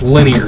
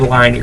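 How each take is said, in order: First: The first syllable is a short lin sound. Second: The first syllable sounds like the word line. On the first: The speaker calls it right. "It's linear" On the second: The speaker calls it wrong. "don't say line ear"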